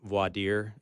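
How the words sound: It is said the French way.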